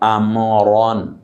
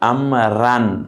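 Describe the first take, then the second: First: The r is thick with rounded lips. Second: The r is thin with an open vowel. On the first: The speaker calls it right. "মুখটা একটু গোল করে, রটা মুখের ভেতরে থাকবে মোটা করে" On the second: The speaker calls it wrong. "এভাবে না"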